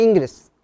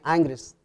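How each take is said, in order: First: "Ingres" said as written, with a clear initial "in"; as spelled. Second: "Ingres" opening with a nasal French "an" sound; French-style pronunciation. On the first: Teacher showing pupils the painter's spelling, "Ingres" read as written. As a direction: sound out "Ingres" letter by letter as Spanish spelling. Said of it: "Se escribe Ingres". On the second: Teacher showing pupils how the French painter is pronounced, "Ingres" said "Angres". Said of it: "se pronuncia Ingres". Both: Shown as a demonstration.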